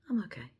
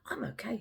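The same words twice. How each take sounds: First: The voice sounds flat, reluctant and downcast. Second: The voice sounds bright, easy and upbeat. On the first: Something is wrong despite the words. "something a little bit off about what their about their response" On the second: The person really is fine. "World of difference"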